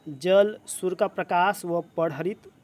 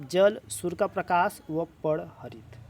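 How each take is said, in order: Both takes have the same delivery.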